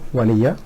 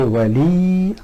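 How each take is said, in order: First: The final ya is followed by an 'a' vowel. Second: The final ya carries no vowel after it. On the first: The speaker calls it right. "Waliya is easy to, is much better flow" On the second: The speaker calls it wrong. "if it is a Sukun here, we have to say Wali, which is a little bit hard, the flow is not very good"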